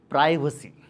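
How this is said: It is said the Indian way. This is how most Indians say it. "majority of the Indians pronounce this word as privacy"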